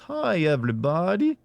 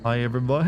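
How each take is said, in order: First: It is said in a Simpsons character voice. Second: It is said in his normal voice.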